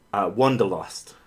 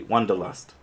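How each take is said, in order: First: "wanderlust" said oddly, last part like "lost"; weird pronunciation. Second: Said in the usual way. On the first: Real, not acted. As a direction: say "wanderlust" awkwardly, ending "lost". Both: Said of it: "I said that really weirdly".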